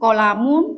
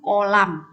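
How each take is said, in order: First: The word ends with a voiced -un ending. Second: The word ends on a bare m sound. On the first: The reading continues past this word. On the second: The reading stops at this word. "menjadi mati"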